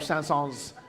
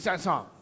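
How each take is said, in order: First: The final S sound is pronounced. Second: The final S sound is silent. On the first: The speaker calls it wrong. "French announcers just started adding the S" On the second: The speaker calls it right. "we know it really should be Sanson"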